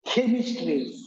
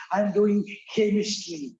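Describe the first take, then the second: First: Chemistry with a hard k start; teacher giving the right chemistry; correct pronunciation. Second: Lightly voiced student, mispronouncing chemistry; imitating the girl. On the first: Shown as a demonstration. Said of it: "Chemistry becomes chemistry". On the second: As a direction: mimic the girl's chemistry. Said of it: "And the girl said".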